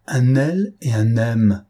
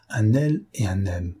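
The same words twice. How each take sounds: First: Slow, weighted "Un L et un M"; dawning shock, spelled out slowly; slow stunned repeat. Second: Said in the usual way. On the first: A narrator's reading. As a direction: let each letter land, louder.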